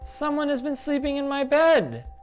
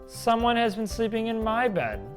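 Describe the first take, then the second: First: It is said in a tiny, high voice. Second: It is said in a medium-sized voice.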